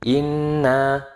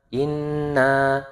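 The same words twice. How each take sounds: No difference in how they are said.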